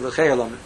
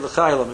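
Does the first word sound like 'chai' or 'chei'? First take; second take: chei; chai. First: The first word has an 'ei' vowel, like 'chei'. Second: The first word has an 'ai' vowel, like 'chai'. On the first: The speaker calls it wrong. "you don't say L'Chai Olamim" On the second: The speaker calls it right. "You say L'Chai Olamim"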